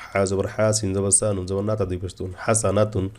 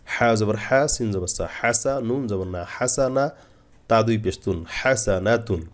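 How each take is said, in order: First: Wrong run-on spelling. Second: হাসানাতুন built up syllable by syllable, pausing on each join; measured spelling, drawing out হাসা and হাসানা before হাসানাতুন; step-by-step spelling. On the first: Teacher shows how not to spell, letters of হাসানাতুন run together. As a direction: rattle off the letters, join only at হাসানাতুন. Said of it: "এভাবে না". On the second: Teacher shows the correct method, joined-up spelling of হাসানাতুন. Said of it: "এভাবে বানান করবেন". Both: Shown as a demonstration.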